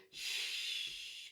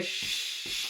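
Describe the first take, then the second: First: Very soft, whispered shush; faint, gentle shushing sound; too-quiet shush. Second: Firm repeated shushing; insistent, quicker rhythmic shushes; louder, faster shush. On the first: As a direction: hush barely audibly. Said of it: "if your baby's still crying and quite loud, then there's no point in you going". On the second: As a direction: shush over a crying baby. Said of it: "So a little bit louder and a bit faster". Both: Shown as a demonstration.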